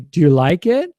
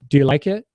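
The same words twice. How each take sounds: First: The pitch rises at the end. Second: The pitch stays flat to the end.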